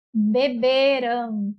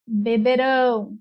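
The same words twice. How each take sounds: First: "beberam" very slowly, with a long BE before ram; stress on penultimate syllable. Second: "beberão" slowly, landing long on RÃO; stress on last syllable. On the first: Teacher modelling the past tense, "beberam" with second BE stressed. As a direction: draw out be-BEEE-ram in "beberam". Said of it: "a sílaba mais forte é a penúltima". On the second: Teacher modelling the future tense, "beberão" with RÃO stressed. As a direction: lean on the end of be-be-RÃO in "beberão". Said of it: "ela é oxítona". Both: Shown as a demonstration.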